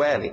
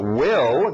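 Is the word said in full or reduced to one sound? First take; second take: reduced; full. First: Only a short l sound is said. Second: The full word is said with its vowel. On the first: "A gente só tira aquela pecinha, o L" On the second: "will, grandão"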